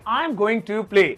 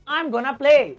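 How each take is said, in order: First: Going to is said fully as two words. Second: Going to is squeezed into one short word.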